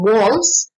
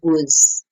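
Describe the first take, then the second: First: The vowel is full and clearly heard. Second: The vowel is weak and hard to hear. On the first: "it goes from was" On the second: "to was. So sometimes it's quite difficult to hear"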